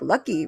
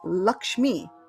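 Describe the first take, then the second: First: The middle cluster is said as a plain k. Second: The middle cluster is said as ksh. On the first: This is how it is said in Bengal. "It's like lucky, really" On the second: This is the usual pronunciation. "usually you'll get Lakshmi"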